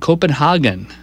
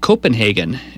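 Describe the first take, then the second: First: The hagen vowel sounds like a in father. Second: The hagen vowel sounds like ay in day. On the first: "as in Haagen-Dazs" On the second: "I've noticed more of a convergence on pronouncing it Copenhagen in this country"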